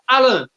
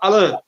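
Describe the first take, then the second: First: The stress is on the first syllable. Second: The stress is on the second syllable. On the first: "tem uma tônica no A, no primeiro A, na primeira sílaba" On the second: "ou na segunda"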